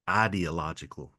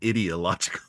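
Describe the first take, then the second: First: The beginning does not sound like 'idiot'. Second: The beginning sounds like the word 'idiot'. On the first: The speaker calls it right. "repronounce the word ideological" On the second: The speaker calls it wrong. "rather than ideological because you know what that sounds like"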